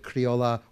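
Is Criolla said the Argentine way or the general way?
general. It is said the general, non-Argentine way.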